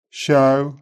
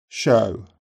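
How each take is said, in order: First: Open-mouthed Brummie Show. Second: Said in the usual way. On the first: Shown as a demonstration. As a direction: Show starting back and open, like "show-w" from ah. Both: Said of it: "Brummies tend to start O, with the tongue back".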